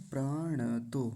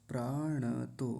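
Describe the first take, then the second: No difference in how they are said.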